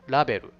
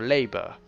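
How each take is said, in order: First: It is said with a Japanese katakana accent. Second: It is said with an English accent. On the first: The speaker calls it wrong. "In katakana pronunciation, you'd say" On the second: The speaker calls it right. "It's like a"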